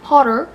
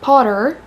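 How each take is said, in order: First: It is said in an American accent. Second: The same.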